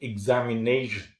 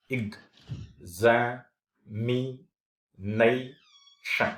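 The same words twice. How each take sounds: First: Said in the usual way. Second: "examination" very slowly, a long pause after each syllable; one puff of air per syllable of "examination". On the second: Shown as a demonstration. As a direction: chop "examination" into separate, drawn-out syllables. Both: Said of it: "a single puff of air".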